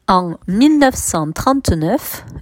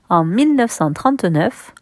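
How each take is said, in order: First: It is read more slowly. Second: It is read at a normal pace.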